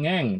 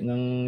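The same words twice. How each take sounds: First: The hum is loud and strongly revved. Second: The hum is soft and only slight. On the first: The gas pedal is pressed too hard. The speaker calls it wrong. "bukan ngeng" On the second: The gas pedal is pressed just a little. The speaker calls it right. "Dengungnya sedikit aja"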